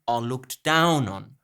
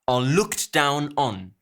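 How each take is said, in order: First: The stress falls on down. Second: The stress falls on looked and on. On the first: The speaker calls it right. "Conversational language would be" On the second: The speaker calls it wrong. "to put stresses on the wrong syllables"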